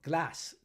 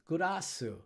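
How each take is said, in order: First: It is said with a plain English pronunciation. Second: It is said with Japanese katakana-style syllables.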